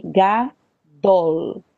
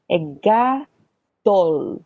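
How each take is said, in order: First: Said in the usual way. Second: "gadol" stretched out very slowly; slow demonstration. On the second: Shown as a demonstration. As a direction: drag every sound of "gadol" out for the learners. ("gadol" bem devagar, sílaba por sílaba)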